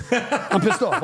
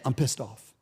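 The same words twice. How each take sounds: First: Laughing. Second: Said in the usual way. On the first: Retold or imitated.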